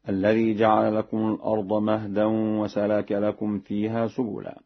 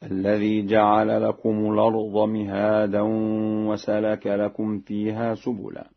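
First: Said in the usual way. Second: "مهادا" recited as mi-haa-dan, with a long aa; Warsh reading. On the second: Shown as a demonstration. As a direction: read "مهادا" with i on the m, alif after the h. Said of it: "بكسر الميم وفتح الهاء وألف بعدها هكذا".

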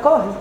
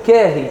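First: قاهي with a broad back "aa"; heavier, open first syllable in قاهي; open pronunciation. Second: كاهي with a light "kae-hi" vowel; light, front first syllable in كاهي; fronted pronunciation. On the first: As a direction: say قاهي as "KAH-hee". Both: Shown as a demonstration. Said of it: "طب ما هي تتقال قاهي".

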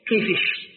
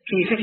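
First: "كيفش" ending in sh instead of k; local Kashkasha. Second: Said in the usual way. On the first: Shown as a demonstration. Teacher showing a local dialect, "كيفش" with final sh. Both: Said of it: "بعض اللهجات عندنا هنا".

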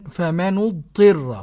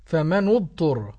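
First: "فمن اضطر" slowly as famanu-dtirra; u on nun, i on ta in "فمن اضطر"; Abu Ja'far reading. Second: "فمن اضطر" slowly as famanu-dturra; u on both nun and ta in "فمن اضطر"; damm reading. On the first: Presenter asked how to read it, slow famanu-dtirra. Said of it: "ضم النون وكسر الطاء". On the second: Presenter answering the sheikh, slow famanu-dturra. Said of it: "والباقون بالضم". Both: Shown as a demonstration.

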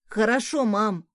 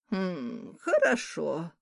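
First: Louder, bright "Хорошо" rising at the end; eager exclamation. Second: Doubtful hmm. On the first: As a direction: call back cheerfully while running off. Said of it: "воскликнул сын". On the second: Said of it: "не поверила Морган". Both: Acted.

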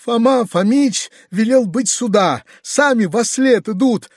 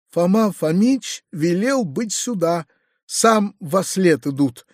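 First: High-pitched, wailing report; mournful. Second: Slow, subdued sorrowful report; mournful. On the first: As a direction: lament it in a raised voice. (скорбно причитая) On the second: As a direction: report it sorrowfully, drawing the words out. (скорбно, протяжно) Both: A narrator's reading. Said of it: "отвечал скорбный Гаврила".

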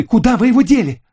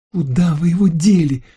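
First: Very high, loud raging demand; furious shriek. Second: High shrill squeal of a question; shriek. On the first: Lucille demands the swimsuit back, furious shriek. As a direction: scream the question in fury. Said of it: "в бешенстве воскликнула она". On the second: Lucille demands where the swimsuit went, shrieking. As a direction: squeal it accusingly. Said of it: "взвизгнула она". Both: A narrator's reading.

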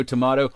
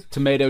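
First: Tomato as "to-MAH-to"; long AH in the middle of tomato; second tomato pronunciation. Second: Tomato as "to-MAY-to"; long AY in the middle of tomato; first tomato pronunciation. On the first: Joking about rival pronunciations, tomato said "to-MAH-to". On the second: Joking about rival pronunciations, tomato said "to-MAY-to". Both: Shown as a demonstration. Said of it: "we don't say potato".

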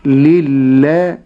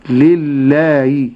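First: لله with a clear ha, drawn out and louder; correct ha. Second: لله with the kasra overpowering the ha, drawn out; wrong kasra. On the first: Sheikh modelling the correct ha, slowly. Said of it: "ولكن أقول". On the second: Sheikh imitating the mistake, slowly. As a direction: let the kasra swallow the ha. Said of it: "وهذا خطأ". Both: Shown as a demonstration.

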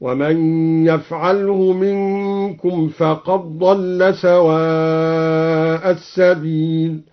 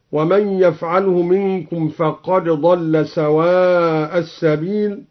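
First: فقد ضل with the dal merged into a doubled dad; very slow recitation, فقد ضل run together; chanted, the dal absorbed. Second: Said in the usual way. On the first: Shown as a demonstration. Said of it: "بإدغام الدال في الضاد". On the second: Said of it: "هكذا".

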